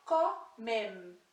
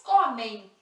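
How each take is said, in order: First: Comem ending on a clear n; the Spanish comen, clean final n. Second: Comem with a nasal ei ending, loud and clear; Portuguese comem. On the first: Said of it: "Em espanhol". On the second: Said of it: "em português". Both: Shown as a demonstration.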